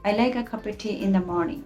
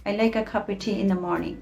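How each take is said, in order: First: The small words are reduced to a schwa. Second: The same.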